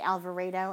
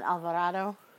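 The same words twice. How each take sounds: First: The name is said with an English-style pronunciation. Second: The name is said with a Spanish-style pronunciation. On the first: This is how locals say the name. The speaker calls it right. "be able to say Alvarado" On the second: This is how an outsider expected the name to sound. The speaker calls it wrong. "and not Alvarado"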